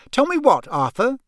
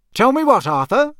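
First: Much higher, sharp demanding wife; suspicious wife. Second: Dangerous voice. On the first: Acted. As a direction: pin her husband down. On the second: A narrator's reading. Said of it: "in a dangerous sort of voice".

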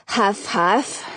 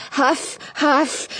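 First: Breathless huffing; out of breath from the stairs; climbing stairs. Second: Breathless huffing; winded puffing on the stairs; climbing stairs. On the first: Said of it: "I can't talk and climb at the same time". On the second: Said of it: "I push myself up the last few stairs". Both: A narrator's reading.

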